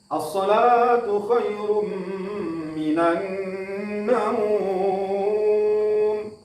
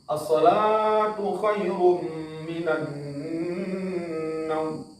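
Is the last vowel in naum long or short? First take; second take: long; short. First: The last vowel in naum is long. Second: The last vowel in naum is short. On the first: "naumnya panjang atau mat" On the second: "naumnya tidak panjang"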